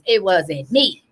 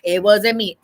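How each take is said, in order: First: It is said imitating Shaggy's deep voice. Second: It is said in her normal voice.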